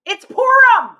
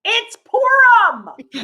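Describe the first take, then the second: First: High, loud comic cry; mock outburst. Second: High comic cry, very slow; drawn-out mock wail. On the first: Mock outburst over the longest show. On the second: Comedian repeats her punchline, drawn-out mock outburst. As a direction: stretch PURIM right out, high.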